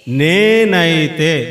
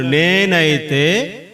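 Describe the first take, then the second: First: నేనైతే stretched slow and loud, falling at the end; drawn-out emphasis. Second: నేనైతే stretched slow with a rising end, inviting a reply; drawn-out rising cue. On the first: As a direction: hold every syllable of నేనైతే, louder, then drop. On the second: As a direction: draw out నేనైతే and lift it at the end as a prompt. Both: Shown as a demonstration. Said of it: "గుర్తుపెట్టుకోండి".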